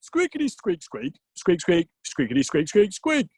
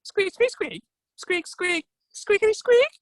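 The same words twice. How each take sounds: First: Squeak-words in a natural-pitched voice; Odin speaking squirrel. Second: Very high squirrel squeaks; Ratatosk. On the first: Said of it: "Oh, right, yeah, sorry, sorry". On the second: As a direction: answer in piercingly high squeak-words. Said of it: "To which Ratatosk replied". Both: Acted.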